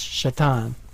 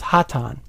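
First: The name begins with an sh sound. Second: The name begins with an h sound. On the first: The speaker calls it wrong. "I'm going to pronounce this" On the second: The speaker calls it right. "Oh, it's pronounced Hatan"

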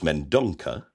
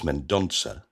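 First: The C is pronounced as a hard K sound. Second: The C is pronounced as a soft S sound. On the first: The speaker calls it wrong. "some people who pronounce your name as Mendonca" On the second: The speaker calls it right. "So it's a C with a cedilla, which is a French or a soft C"

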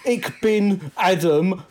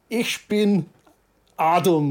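First: It is said without a German accent. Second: It is said with a German accent. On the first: The speaker calls it wrong. "You don't say" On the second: The speaker calls it right. "You speak in a German accent"

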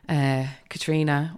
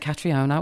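First: The name is said the Irish way. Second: The name is said the British way. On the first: The speaker calls it right. "she said my name correctly" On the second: The speaker calls it wrong. "the Brits can't say it correctly. They all say"

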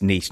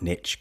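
First: Niche is said with a British pronunciation. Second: Niche is said with an American pronunciation. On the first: The speaker calls it right. "it's niche, ... because I am English" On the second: The speaker calls it wrong. "not niche"

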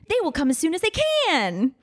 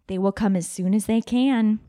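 First: The line is read with lively excitement. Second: The line is read flatly, without excitement. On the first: The speaker calls it right. "deserves a better line reading" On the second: The speaker calls it wrong. "That has an exclamation point on it, and I think it deserves a better line reading"

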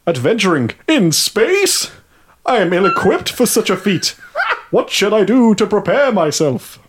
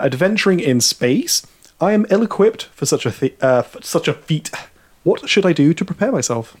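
First: It is said in a put-on character voice. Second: It is said in his normal voice.

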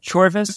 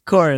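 First: The name has a v sound in the middle. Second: The name has no v sound in the middle. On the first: The speaker calls it wrong. "Chorvis is just what you tricked me into thinking the name of the game was" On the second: The speaker calls it right. "It's actually Chorus"

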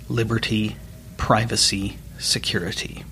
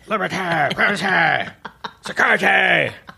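First: It is said in his normal voice. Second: It is said in a Cartman impression.

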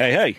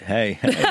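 First: It is said in a cool, casual way. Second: It is said in a creepy, leering way.

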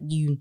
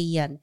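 First: The vowel is a long 'oo' sound. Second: The vowel is a short 'uh' sound. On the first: The speaker calls it wrong. "and not Yoon" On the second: The speaker calls it right. "make sure to say Yeun"

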